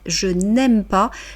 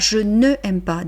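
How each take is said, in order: First: "Ne" is shortened and joined onto "aime." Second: "Ne" is said as a separate syllable before "aime." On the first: The speaker calls it right. "dites je n'aime pas" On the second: The speaker calls it wrong. "ne dites pas je ne aime pas"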